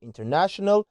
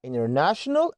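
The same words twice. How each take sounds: First: "international" with the T sounded; T pronounced. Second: "international" said as "innernational"; American "international", T left out; silent T. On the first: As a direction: say "international" as "in-ter-national". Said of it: "لو قلتها international صح". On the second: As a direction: drop the T after N in "international". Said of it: "ما تتنطقش". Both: Shown as a demonstration.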